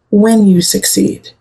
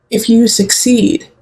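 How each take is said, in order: First: WHEN stressed and drawn out. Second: Said in the usual way. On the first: Real, not acted. Reader corrects "if" for Virgo, stress on WHEN. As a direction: lean slowly and firmly on "when".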